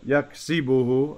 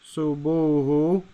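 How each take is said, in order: First: The vowel after 'yaks-' is an 'i' sound. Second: The vowel after 'yaks-' is a 'u' sound. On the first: The speaker calls it right. "No, yaksibuhu" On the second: The speaker calls it wrong. "I said yaksubuhu. That didn't sound right at all"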